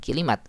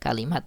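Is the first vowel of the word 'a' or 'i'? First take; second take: i; a. First: The first vowel is an 'i' sound. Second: The first vowel is an 'a' sound. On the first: The speaker calls it wrong. "ini keliru nih harokatnya" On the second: The speaker calls it right. "kalimat ya bukan kilimat ya"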